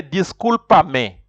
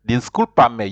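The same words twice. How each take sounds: First: "Discúlpame" drawn out slowly, stress on CUL; slow model word. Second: Said in the usual way. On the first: Shown as a demonstration. Teacher slowly modelling "Discúlpame" for the class. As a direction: stretch "Discúlpame" slowly, syllable by syllable. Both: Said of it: "you can even say".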